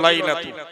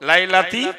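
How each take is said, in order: First: The word ends with an 'u' vowel. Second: The word ends with an 'i' vowel. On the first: The speaker calls it wrong. "হুজুর পড়ে দিল লাইলাতু" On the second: The speaker calls it right. "ফি হরফে জার ... শেষ অক্ষরে জের করা"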